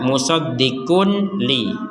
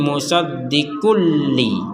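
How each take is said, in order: First: The n is pronounced clearly before the l. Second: The n merges fully into the l sound. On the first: "asal katanya ini adalah" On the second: "kita masukkan menjadi"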